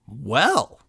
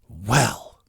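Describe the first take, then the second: First: It sounds surprised, like saying I'll be darned. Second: It sounds exasperated and fed up.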